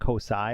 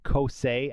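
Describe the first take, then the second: First: The name ends with an 'eye' vowel. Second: The name ends with an 'ay' vowel. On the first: The speaker calls it wrong. "and not Kosai" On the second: The speaker calls it right. "I know that is now Kosei"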